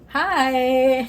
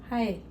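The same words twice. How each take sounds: First: The greeting sounds lively and enthusiastic. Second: The greeting sounds flat and unenthusiastic.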